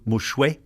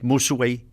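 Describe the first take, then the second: First: The middle consonant is an sh sound. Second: The middle consonant is a plain s sound. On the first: This is the older borrowed form of the word. "as opposed to mushwe, the Acadian French" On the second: This is the modern form of the word. "nowadays you'll hear Mi'kmaq people will say musuwe"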